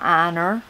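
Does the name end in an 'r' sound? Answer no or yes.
yes. The name ends with an added 'er' sound.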